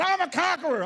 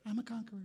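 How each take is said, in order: First: High, loud mock war cry; scary shout. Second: Soft, powerless imitation; mock feeble. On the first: Preacher imitating scary ladies walking around, shouting. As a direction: bellow it to frighten people. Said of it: "you'd be really scary". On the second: Preacher mimicking men with no bass, feebly. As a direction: say it weakly, without conviction. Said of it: "get some bass in your voice".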